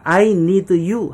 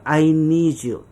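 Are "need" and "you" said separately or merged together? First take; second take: separately; merged. First: "Need" and "you" are pronounced as separate words. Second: "Need" and "you" merge into one sound, like "needs." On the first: The speaker calls it wrong. "I need you 하지 마시고" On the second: The speaker calls it right. "need you를 합치면 needs가 돼요"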